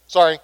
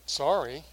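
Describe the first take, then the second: First: Grudging, louder throwaway sorry; insincere sorry. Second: Dismissive sorry. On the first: Retold or imitated. Fourth grader forced by teacher to apologize, insincere. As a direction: mumble it like a forced kid. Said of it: "How sincere did that sound to you?". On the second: Shown as a demonstration. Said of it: "And not settle for".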